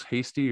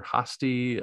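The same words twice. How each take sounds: First: "Hasty" with a long AY, like the English word; Hasty as HAY-stee. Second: "Hasty" with an open AH in the first syllable; Hasty as HAH-stee. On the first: Reader unsure of a character's name, Hasty as HAY-stee. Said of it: "I didn't know if it was". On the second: Reader offers another way to say the name, Hasty as HAH-stee. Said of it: "if it was Hasty or Hasty". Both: Shown as a demonstration.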